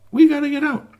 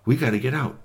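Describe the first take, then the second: First: High, loud squeal to get out; desperate shout. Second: Said in the usual way. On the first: Acted. Trapped doll squealing high and loud to get out. Dolls pleading to escape box.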